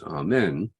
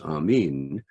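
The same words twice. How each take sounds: First: The second syllable has a short e vowel. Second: The second syllable has a long e vowel. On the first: This is the common everyday form. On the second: This is the original form of the word. "its original pronunciation is Amen. That's how it's written in the uh, New Testament in Greek with the long eta"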